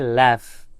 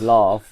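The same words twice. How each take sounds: First: The vowel does not rhyme with love. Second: The vowel rhymes with love.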